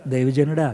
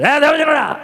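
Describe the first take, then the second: First: Said in the usual way. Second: "ఏ దైవజనుడా" pitched high with irritated mockery; irritated sarcasm. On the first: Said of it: "మొదటి type కాదు". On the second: Shown as a demonstration. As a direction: sneer the title sarcastically. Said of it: "చిరాగ్గా అన్నది ఎటకారంతో".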